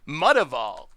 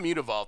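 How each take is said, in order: First: The first syllable sounds like the word 'mutt'. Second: The first syllable does not sound like 'mutt'. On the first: The name evokes a mixed breed dog. "a mutt is like a mixed breed dog" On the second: This is the pronunciation others insist on. "That's what I say now after getting lectured"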